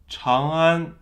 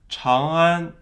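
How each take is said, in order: No difference in how they are said.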